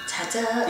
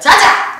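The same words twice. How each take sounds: First: It is said softly and gently. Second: It is said strongly and forcefully. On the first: The speaker calls it wrong. "되게 부드럽게 보이죠" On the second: The speaker calls it right. "자자도 너무 부드럽게 하면 안 돼요"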